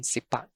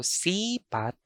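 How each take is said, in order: First: Sipat with short SI, stressed PAT; stress on second syllable. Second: Sipat with long SEE; SII-pat; stress on first syllable. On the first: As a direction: clip the first vowel of sipat. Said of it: "The alternate pronunciation for sipat". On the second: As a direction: stretch the first vowel of sipat. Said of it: "I'm going to read". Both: Shown as a demonstration.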